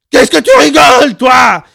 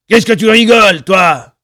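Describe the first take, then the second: First: Very loud, very high derailing shriek; unhinged screech at full volume; shrill cracking scream. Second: High, loud threatening shout; furious bellowed challenge; angry yell. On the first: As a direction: scream till the voice cracks upward. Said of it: "beaucoup plus fort et d'une voix beaucoup plus aiguë qui déraillait". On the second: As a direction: round on them yelling. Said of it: "hurla le barbu". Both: A narrator's reading.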